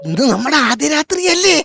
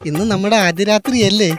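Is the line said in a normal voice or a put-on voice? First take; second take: put-on; normal. First: It is said in a hushed, put-on imitation voice. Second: It is said in his ordinary speaking voice.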